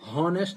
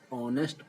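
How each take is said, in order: First: The word begins with an h sound. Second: The word begins directly with a vowel. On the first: The speaker calls it wrong. "इसको हॉनेस्ट नहीं पढ़ा जाता" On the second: The speaker calls it right. "ऑनेस्ट पढ़ा जाता है"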